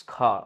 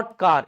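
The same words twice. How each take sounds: First: "car" as an open "khaa", no r; British-style "car" ending on a long vowel; silent final r. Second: "car" with the final r pronounced; Hindi-style "car", closing on an audible r; r fully sounded. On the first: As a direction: drop the r in "car", puff the k. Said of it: "रा नहीं बोलना है पूरा पूरा". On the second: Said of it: "रा नहीं बोलना है". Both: Shown as a demonstration.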